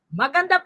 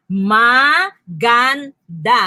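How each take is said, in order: First: Said in the usual way. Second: "Maganda" slow as ma, gan, da, each held; broken into syllables. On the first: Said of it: "Ano kayang word nito?". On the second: Shown as a demonstration. Teacher asking what word it is, "Maganda" syllable by syllable. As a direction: sound out "Maganda" in three separate beats. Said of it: "Ang unang silaba is ma".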